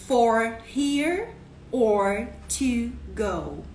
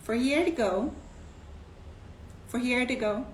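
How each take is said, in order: First: For here or to go spoken very slowly; slow, separated. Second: Fast cashier question. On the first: Shown as a demonstration. Teacher repeats the cashier's question slowly for students. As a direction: unpack each word for learners. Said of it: "Pra comer aqui ou pra levar?". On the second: Retold or imitated. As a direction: run together, For here to go. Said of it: "Aí ele pergunta assim".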